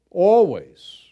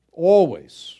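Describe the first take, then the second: First: Always louder and firm with a falling end; emphatic always again. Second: Always punched louder, falling; emphatic always. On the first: Preacher repeating to congregation, Always loud and final. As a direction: stamp Always a second time. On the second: Preacher insisting to congregation, Always said loud and final. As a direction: hammer the word Always home. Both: Real, not acted. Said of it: "emphatic repetition".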